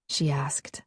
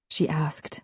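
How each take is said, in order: First: The tag line whispered too; whispered narration. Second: Said in the usual way. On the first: A narrator's reading. Narrator carrying the lovers' whisper. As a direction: keep the whisper through the tag.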